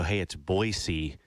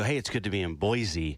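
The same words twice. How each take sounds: First: Put-on Boise said with an s, Boy-see, very slowly and pointedly; local's Boise. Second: Put-on Boise said with a z, Boy-zee, slowly; greeting Boise locals, Boise said as Boy-zee; visitor's Boise. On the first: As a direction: correct the visitor: Boy-see, drawn out. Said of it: "And they go". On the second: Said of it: "if you go".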